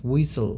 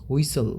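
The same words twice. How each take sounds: No difference in how they are said.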